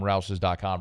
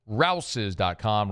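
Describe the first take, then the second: First: Said in the usual way. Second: Rouses dot com stretched out very slow, every word leaned on; drawn-out web address. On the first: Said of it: "said twice". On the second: Acted. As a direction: savour "Rouses dot com" slowly like a jingle. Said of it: "repeated right after".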